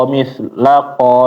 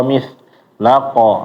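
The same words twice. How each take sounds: Both takes have the same delivery.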